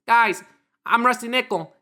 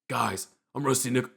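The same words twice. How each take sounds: First: It is said mimicking the impostor's voice. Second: It is said in a plain, normal voice.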